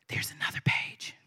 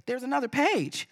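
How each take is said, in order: First: Whispered aside. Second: Said in the usual way. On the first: Real, not acted. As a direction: breathe it unvoiced. Reader repeats it under her breath.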